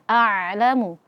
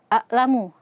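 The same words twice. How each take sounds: First: The sound flows slightly through the ain. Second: The sound is cut off at the ain. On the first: The speaker calls it right. "harusnya a'lamu" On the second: The speaker calls it wrong. "jangan sampai kita tahan suara di huruf ain, jadinya terbaca a"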